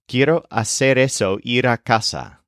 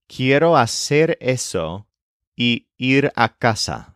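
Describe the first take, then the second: First: The word y merges away before ir. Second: The word y is heard clearly before ir.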